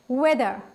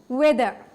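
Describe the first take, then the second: Both takes have the same delivery.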